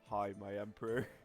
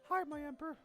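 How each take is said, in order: First: It is said in a very deep voice. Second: It is said in a higher, lighter voice.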